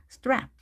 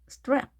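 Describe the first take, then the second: The two takes are said the same way.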